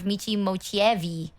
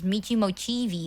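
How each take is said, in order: First: The extra E sound is pronounced. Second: The extra E sound is left out. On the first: The speaker calls it wrong. "instead of" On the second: The speaker calls it right. "the E is silent, so you pronounce it as"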